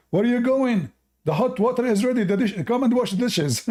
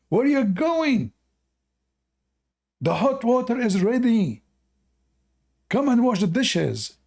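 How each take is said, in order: First: High, loud scolding wife voice; bossy wife. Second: High, loud nagging wife, even more hammed up; bossy wife. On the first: Acted. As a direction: call him back to the dishes. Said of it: "The wife, she said". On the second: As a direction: shout him back to wash the dishes. Wife's line repeated for the punchline.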